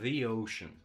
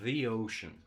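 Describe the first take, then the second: First: 'The' is said as 'thee' before the vowel. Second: 'The' is said as 'thee' before the vowel.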